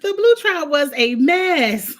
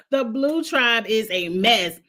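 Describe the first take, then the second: First: Louder, drawn-out exclamation; loud and slow. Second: Said in the usual way. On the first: Shown as a demonstration. Recapping the episode to her viewers, loud and slow. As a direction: belt it out slowly like a verdict.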